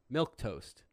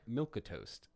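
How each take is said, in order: First: It is said with two syllables. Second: It is said with three syllables. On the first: The speaker calls it right. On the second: The speaker calls it wrong.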